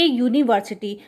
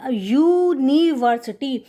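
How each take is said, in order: First: Said in the usual way. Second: यूनिवर्सिटी drawn out, opening on a clear y glide; opening "ya" sound. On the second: Shown as a demonstration. Teacher shows children why it takes "a", यूनिवर्सिटी sounded out slowly from the y. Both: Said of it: "इससे या की sound आ रही है".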